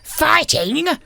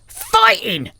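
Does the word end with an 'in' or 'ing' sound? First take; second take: ing; in. First: The word ends with a full 'ing' sound. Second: The word ends with a hard 'in' sound. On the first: The speaker calls it wrong. "we're not fighting" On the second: The speaker calls it right. "anything that ends in an ing becomes a hard in"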